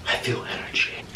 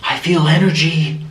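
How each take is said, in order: First: Whispered, mock-spooky ghost hunter; crazy ghost hunter. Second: Lightly acted, voiced ghost hunter; crazy ghost hunter. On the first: Mimicking the ghost hunter sensing energy, eerie whisper. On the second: Mimicking the ghost hunter sensing energy, voiced and mildly dramatic. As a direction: sense a presence, mildly theatrical. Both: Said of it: "She would just go crazy".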